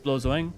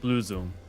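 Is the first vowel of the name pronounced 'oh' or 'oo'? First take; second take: oh; oo. First: The first vowel sounds like 'oh'. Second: The first vowel sounds like 'oo'. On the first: The speaker calls it wrong. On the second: The speaker calls it right.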